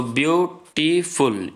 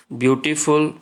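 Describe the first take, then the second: First: "beautiful" slowly in three parts, view, टी, फुल; teacher sounding out "beautiful" as three separate beats; split into syllables. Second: Said in the usual way. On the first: Shown as a demonstration. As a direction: pause after each syllable of "beautiful". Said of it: "तीन syllable है इसमें देखिए". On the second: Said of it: "तीन syllable है".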